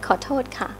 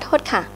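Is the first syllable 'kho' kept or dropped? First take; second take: kept; dropped. First: The first syllable kho is pronounced. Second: The first syllable kho is dropped. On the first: A normal apology. "That's right" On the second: The speaker is in a hurry. "you just need to go really fast and then you say excuse me"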